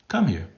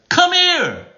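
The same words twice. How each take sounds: First: Said in the usual way. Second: Very high, loud summons; high-pitched calling out; different pitch. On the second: Shown as a demonstration. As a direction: shoot the pitch way up. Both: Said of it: "different pitch".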